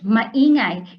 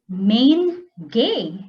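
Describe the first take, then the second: First: It is said as three syllables, ma-i-ngay. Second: It is said as two syllables, main-gay.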